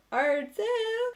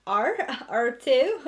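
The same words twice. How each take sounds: First: "are too" jumps high and bright; high excited. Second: Said in the usual way. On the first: Real, not acted. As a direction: lift "too" up high with glee. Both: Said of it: "I really hope you guys are".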